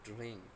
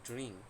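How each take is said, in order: The two takes are said the same way.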